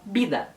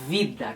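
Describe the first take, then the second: First: It starts with a b sound, lips together. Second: It starts with a buzzing v, air between teeth. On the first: This is how Spanish speakers say it. "Eles falam vida" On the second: This is how Brazilians say it. "que quase que sai um ventinho entre os dentes quando a gente fala a letra V"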